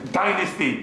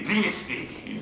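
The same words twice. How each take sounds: First: Dynasty as DIE-nasty; long-i pronunciation. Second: Dynasty as DIN-asty, softer; short-i pronunciation. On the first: Teacher contrasting two pronunciations, long-i dynasty. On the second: Teacher contrasting two pronunciations, short-i dynasty. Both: Shown as a demonstration. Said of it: "You know they think".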